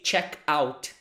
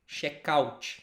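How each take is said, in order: First: It is pronounced with English sounds. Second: It is pronounced with Portuguese sounds. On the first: The speaker calls it wrong. "We do not say check out" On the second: The speaker calls it right. "We sort of say in a way that we read it in Portuguese"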